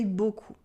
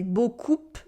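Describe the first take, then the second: First: Beaucoup with silent P, bo-koo; correct pronunciation. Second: Beaucoup with the final P sounded, bo-koop; wrong pronunciation. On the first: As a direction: say beaucoup ending on the vowel. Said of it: "we say beaucoup". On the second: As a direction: say beaucoup pronouncing the P. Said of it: "We don't say beaucoup". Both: Shown as a demonstration.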